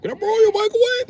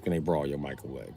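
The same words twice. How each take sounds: First: Very high pleading whine; high mocking beggar voice; squeaky crackhead voice. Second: Said in the usual way. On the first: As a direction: beg for it like a crackhead. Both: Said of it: "Crackheads ask you".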